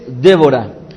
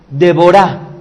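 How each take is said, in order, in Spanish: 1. El nombre se dice en su forma española. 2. El nombre se dice en su forma hebrea. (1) "este nombre de esta mujer es Débora" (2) "la pronunciación correcta en el hebreo sería Deborah"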